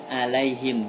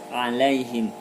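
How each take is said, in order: First: It begins with a plain glottal stop. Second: It begins with a throaty pharyngeal sound. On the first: The speaker calls it wrong. "Bedakan dengan huruf hamzah. Bukan alaihim" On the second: The speaker calls it right. "tapi alaihim. Ain harus jelas ainnya"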